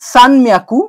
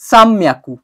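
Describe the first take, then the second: First: An n sound comes before the m. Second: An m sound comes before the m. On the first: "আমি এখানে লিখেছি" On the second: "উচ্চারণ হয়ে যাবে"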